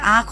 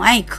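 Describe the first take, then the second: First: Said without a glide before the final consonant. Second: Said with a 'y' glide before the final consonant.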